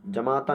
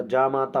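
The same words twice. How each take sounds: First: जमाता with short first "ja"; wrong short vowel. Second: जामाता with long first "jaa"; correct long vowel. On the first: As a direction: keep the opening ज short in जमाता. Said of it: "जमाता नहीं होता". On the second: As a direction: stretch the opening जा in जामाता. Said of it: "जामाता होता है". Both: Shown as a demonstration.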